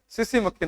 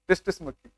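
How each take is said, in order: First: The name begins with an s sound. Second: The name begins with a t sound. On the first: The speaker calls it right. "टी इसमें silent रहता है तो सीसी बोलते हैं" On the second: The speaker calls it wrong. "कई बार हम लोग इसको टिस्टिस बोलते थे"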